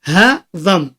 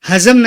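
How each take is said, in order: First: The middle consonant is a soft 'd'-like sound. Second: The middle consonant is a 'z' sound. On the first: The speaker calls it right. "छोटा हा है, उसके आगे दाद है" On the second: The speaker calls it wrong. "Hindi उर्दू में हजम"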